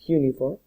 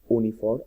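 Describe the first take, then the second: First: The word begins with a 'y' sound. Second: The word begins with a plain vowel sound. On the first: The speaker calls it right. "se pronuncia uniform ... como si fuera una J" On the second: The speaker calls it wrong. "no se pronuncia uniform"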